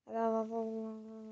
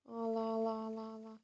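The two takes are said the same way.

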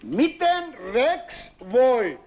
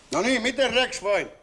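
First: Miten Rex voi drawn out very slow and louder; patient demanding an answer at last; slow insistent demand. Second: Said in the usual way. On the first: Acted. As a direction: spell out each word of Miten Rex voi. Repeats question, losing patience.

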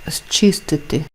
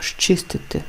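First: «зчистити» with a hissing s or z before ch; spelled pronunciation. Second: «щистити» starting on sh-ch; assimilated pronunciation. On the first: Teacher reads the word before applying the rule, as spelled. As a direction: open «зчистити» on s, then ch. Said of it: "«З ч»". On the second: Teacher shows how the word is pronounced, assimilated. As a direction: say «щистити» with shch for the opening зч. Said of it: "вимовляється як". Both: Shown as a demonstration.

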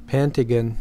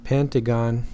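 First: Pentagon with a reduced last vowel, PEN-tuh-gun; British pronunciation. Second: Pentagon with a full last vowel, PEN-tuh-gahn; American pronunciation. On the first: Lecturer showing how England says it, Pentagon as PEN-tuh-gun. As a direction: say Pentagon the English way, ending in gun. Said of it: "In England, we say". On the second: Lecturer showing how the US says it, Pentagon as PEN-tuh-gahn. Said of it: "In the U S, we say". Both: Shown as a demonstration.

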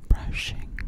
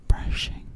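Both takes have the same delivery.

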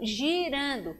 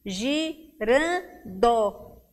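First: Said in the usual way. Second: "girando" very slowly as gi-ran-do; three separate beats on "girando"; syllable by syllable. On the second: Shown as a demonstration. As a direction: pause after each syllable of "girando". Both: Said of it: "quer saber o número de sílabas".

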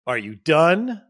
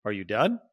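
First: Loud, curt, a little sarcastic; snippy and impatient. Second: Calm and gentle. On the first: Husband cutting off his upset wife, annoyed and loud. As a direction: bark it like you're fed up. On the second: Husband gently checking in after his wife vents, calm. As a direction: ask it kindly and openly, no edge. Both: Shown as a demonstration. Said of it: "But not in a".

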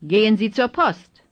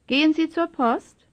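First: Falling tune, voice closing down on "Post"; "Gehen Sie zur Post" as a falling statement; statement intonation. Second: Higher pitch, voice lifting on "Post"; "Gehen Sie zur Post" as a high rising question; question intonation. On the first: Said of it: "first as statements". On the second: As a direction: ask it, rising at the end on "Post". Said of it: "then as questions". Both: Shown as a demonstration.

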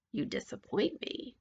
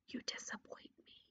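First: Soft, voiced witch rebuke; disappointed witch. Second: Very soft, close whisper. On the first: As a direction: judge her quietly, not whispering. Witch judges princess aloud. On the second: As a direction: whisper it right into the ear. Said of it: "leaned close to him and whispered". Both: A narrator's reading.

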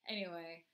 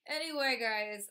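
First: Said in the usual way. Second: Much higher, louder anyway, calling out; loud restart. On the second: Real, not acted. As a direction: shout Anyway to grab attention again. Restarting the sign-off loudly.

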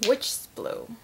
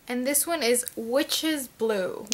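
First: Breathy witchy whisper of the name; spooky whisper. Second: Said in the usual way. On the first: Pretend.

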